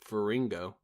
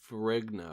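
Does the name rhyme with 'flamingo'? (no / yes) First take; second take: yes; no. First: The name is said to rhyme with flamingo. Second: The name is said not rhyming with flamingo. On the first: The speaker calls it wrong. "like rhyming with flamingo" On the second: The speaker calls it right.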